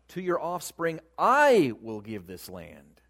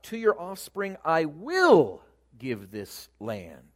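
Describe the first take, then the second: First: The stress is on "I". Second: The stress is on "will".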